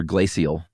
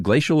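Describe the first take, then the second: First: "glacial" in three syllables, GLAY-see-ul; alternative pronunciation. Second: "glacial" said with a sh in the middle; alternative pronunciation. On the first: Co-host offers the other option, "glacial" as GLAY-see-ul. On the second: Co-host checks which is right, "glacial" as GLAY-shul. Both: Shown as a demonstration. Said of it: "Is it glacial or glacial?".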